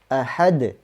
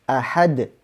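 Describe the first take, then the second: The two takes are said the same way.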